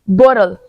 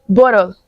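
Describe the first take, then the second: No difference in how they are said.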